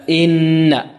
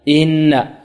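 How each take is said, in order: Both takes have the same delivery.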